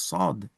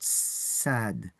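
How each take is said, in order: First: The s sound is heavy and emphatic. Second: The s sound is light and plain. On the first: The speaker calls it right. "recite sad as sad" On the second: The speaker calls it wrong. "and not sad"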